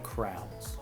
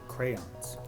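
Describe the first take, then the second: First: The word is squeezed into one syllable. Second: The word is said with two syllables. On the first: "So I will say crowns" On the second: "I try so hard to say crayons"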